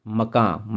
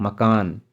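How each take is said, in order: First: मकां with a nasal ending; Persian pronunciation. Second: मकान with a full final n; Hindi pronunciation. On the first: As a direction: say मकां with a nasal vowel and no final n. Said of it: "शब्दों के अंतिम अनुनासिक आकार". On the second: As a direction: end मकान clearly on n. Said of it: "आन कर दिया गया है". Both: Shown as a demonstration.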